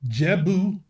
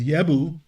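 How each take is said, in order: First: The name begins with a J sound. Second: The name begins with a Y sound.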